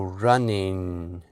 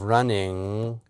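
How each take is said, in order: First: The word ends with a tongue-tip n sound. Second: The word ends with a back-of-tongue ng sound. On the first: "move the placement of the tongue from the soft palate up to the alveolar ridge" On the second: "instead of"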